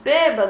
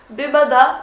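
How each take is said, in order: First: The stress falls on the first syllable. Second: The stress falls on the last syllable. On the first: The speaker calls it right. "Não, bêbado" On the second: The speaker calls it wrong. "eu falava bebadá e ninguém entendia"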